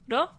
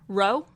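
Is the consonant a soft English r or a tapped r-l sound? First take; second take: tapped; English r. First: It starts with a tapped sound between r and l. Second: It starts with a soft English-style r. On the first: The speaker calls it right. "It's a mix of like R and L" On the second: The speaker calls it wrong. "we just think r, row, row, row, like row your boat"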